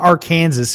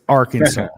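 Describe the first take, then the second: First: It is said in a northern, outsider way. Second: It is said in the local Southern way. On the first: The speaker calls it wrong. "get out of here with that northern stuff" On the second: The speaker calls it right. "It's Arkansas"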